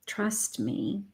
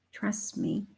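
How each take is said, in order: First: Much softer, a gentle plea; soft and tender as Spirit reassures; soft reassurance. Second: Breathy whisper of "Trust me". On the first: Spirit gently urging the listener, soft and close. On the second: Spirit repeats it to the room in a whisper. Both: Acted. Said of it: "Spirit is saying".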